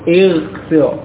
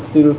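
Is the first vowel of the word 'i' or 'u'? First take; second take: i; u. First: The word begins with an 'i' vowel. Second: The word begins with a 'u' vowel. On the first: The speaker calls it right. "harokat hamzah wasal juga kasrah" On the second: The speaker calls it wrong. "bukan ujlis atau ughsil"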